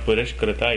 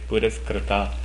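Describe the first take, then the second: First: A sh sound comes before the k. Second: An s sound comes before the k. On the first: The speaker calls it wrong. "it is not Purashkrita" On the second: The speaker calls it right. "it is Puraskrita"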